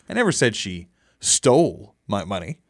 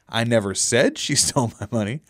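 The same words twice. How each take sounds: First: The stress is on the word 'stole'. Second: The stress is on the word 'said'. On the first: She took the money some other way. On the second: The speaker implied it but did not say it.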